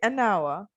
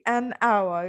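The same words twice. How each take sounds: First: The two words are linked together. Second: The two words are said separately. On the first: The speaker calls it right. "you say an hour, okay? We connect them in a sentence" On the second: The speaker calls it wrong. "you don't say an hour"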